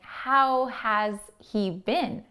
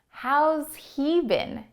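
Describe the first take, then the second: First: The word has is said in full. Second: The word has is contracted onto how. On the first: "Instead of saying" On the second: "you can say"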